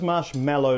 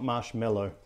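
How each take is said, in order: First: The last part sounds like 'mallow'. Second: The last part sounds like 'mellow'. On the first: The speaker calls it right. "it is marshmallow" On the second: The speaker calls it wrong. "not marshmallow"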